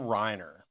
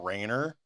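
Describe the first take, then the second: First: The first vowel sounds like 'eye'. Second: The first vowel sounds like 'ay'. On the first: This is the usual way people say it. "have we been saying it wrong all this time?" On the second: This is how the trailer's narrator said it. "fucked up his name and called him Carl Rayner"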